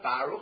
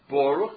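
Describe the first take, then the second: First: The first vowel is a patach sound. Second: The first vowel is a kamatz sound. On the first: The speaker calls it wrong. "not Baruch" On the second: The speaker calls it right. "Baruch has a comment, it's Baruch"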